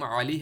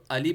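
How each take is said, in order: First: علی starting on a squeezed throat ayn; correct ayn. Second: علی starting on a plain "a"; wrong hamza. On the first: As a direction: say علی with a pharyngeal Arabic first sound. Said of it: "عین کو ہم حمزہ پڑھ لیتے". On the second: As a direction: say علی as everyday "Ali", no throat sound. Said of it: "جو کہ دونوں کی غلط ہے". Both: Shown as a demonstration.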